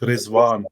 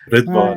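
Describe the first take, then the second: First: The middle consonant is a Z sound. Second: The middle consonant is a D sound. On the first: This is how Persian speakers say the name. "they pronounce their names with a Z instead of a D" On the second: This is the original Arabic form of the name. "spelled R I D V A N"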